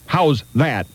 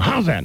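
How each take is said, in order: First: The two words are said as separate words. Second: The two words are run together as one. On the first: The speaker calls it wrong. "Not how's that" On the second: The speaker calls it right. "You got to say it all at one time"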